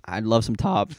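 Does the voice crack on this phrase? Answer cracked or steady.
steady. The voice stays steady throughout the phrase.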